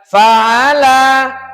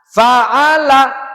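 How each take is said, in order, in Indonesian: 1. Vokal 'la' terakhir dibaca panjang. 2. Vokal 'la' terakhir pendek dan cepat. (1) "lanya tadi kok dibaca panjang?" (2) "Di sini cukup dibaca pendek cepat"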